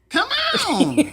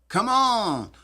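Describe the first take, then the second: First: It is said with Jill's Kentucky pitch. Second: It is said in a plain, neutral accent.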